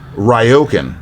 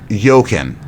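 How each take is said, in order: First: The word begins with an R sound. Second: The word begins with a Y sound. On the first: "I'm going to read this how I would pronounce it" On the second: "So the R is silent"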